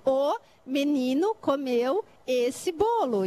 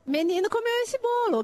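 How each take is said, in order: First: Slow, word by word; teacher spelling out a sentence word by word; slow demo sentence. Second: Higher, word by word; teacher playing with the children, bright sing-song demo. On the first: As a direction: space out each word for the children. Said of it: "Por exemplo". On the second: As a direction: lift it up like a game for kids. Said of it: "O que que sobrou?". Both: Shown as a demonstration.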